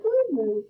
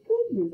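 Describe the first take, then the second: First: Higher, louder petting coo; coaxing moose. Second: Said in the usual way. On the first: Pretend. Player pretending to calm the tall opponent, coaxing coo. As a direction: soothe her like a big animal.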